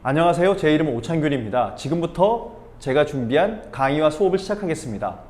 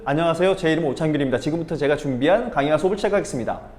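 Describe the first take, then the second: First: It is said slowly, with pauses. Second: It is said fast, without pauses.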